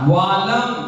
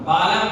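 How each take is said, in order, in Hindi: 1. यह शब्द v की आवाज़ से शुरू होता है। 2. यह शब्द b की आवाज़ से शुरू होता है। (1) "वा" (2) "बालम नहीं"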